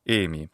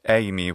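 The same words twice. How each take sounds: First: The first vowel is a plain E sound. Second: The first vowel is an A sound. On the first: The speaker calls it right. "He should be saying eimi" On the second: The speaker calls it wrong. "not eimi, which is not part of the classical Greek language"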